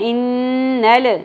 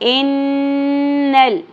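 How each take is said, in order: First: The final l is released with an echo bounce. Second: The final l is held smoothly without a bounce. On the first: The speaker calls it wrong. "نہیں پڑھنا" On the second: The speaker calls it right. "لام ساکن پہ قلقلہ نہیں کرنا"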